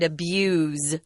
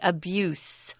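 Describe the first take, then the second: First: The word ends with a buzzing Z sound. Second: The word ends with a hissing S sound. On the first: It is the verb. "it's a Z sound" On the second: It is the noun. "It's an S sound"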